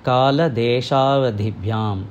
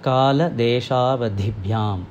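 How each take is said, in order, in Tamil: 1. சந்திப்பில் வார்த்தைகள் சேர்ந்தே இருக்கும். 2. சந்திப்பில் வார்த்தைகள் சேர்ந்தே இருக்கும்.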